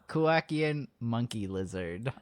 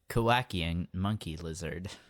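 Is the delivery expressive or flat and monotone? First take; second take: expressive; flat. First: It is said with normal, varied intonation. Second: It is said flat, in a monotone.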